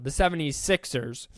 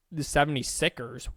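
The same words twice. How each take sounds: First: Said in the usual way. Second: Seventy-sixers misspoken as "seventy-sickers"; slip of the tongue. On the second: Real, not acted. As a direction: drop the second s in seventy-sixers, saying "sickers". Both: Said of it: "Wow, the seventy-sixers".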